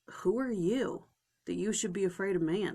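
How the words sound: It sounds scornful and belittling.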